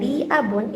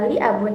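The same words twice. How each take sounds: First: "li abun" with a lengthened "li"; long vowel on li. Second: Said in the usual way. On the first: Shown as a demonstration. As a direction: hold the i in "li" before "abun". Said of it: "itu menggunakan". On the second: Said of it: "itu tidak menggunakan waktu".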